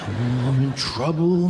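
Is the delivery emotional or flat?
emotional. It is said with strong, anxious emotion. A child says it in real fear.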